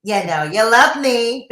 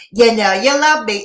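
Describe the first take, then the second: First: Delighted hushed society gossip; smug gossip narrator purr; Gossip Girl tone. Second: Delighted hushed society gossip; teasing gossip narrator sign-off; Gossip Girl tone. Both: Shown as a demonstration. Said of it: "my perfect Gossip Girl tone".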